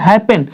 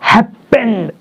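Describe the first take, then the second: First: Said in the usual way. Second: happened split, with pend drawn out and pushed; mock-wrong happened, stretched on its second syllable; wrong final stress. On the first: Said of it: "क्या बोलते हैं". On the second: Shown as a demonstration. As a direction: slowly lean hard on the pend of happened. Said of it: "ऐसा थोड़ी बोलते".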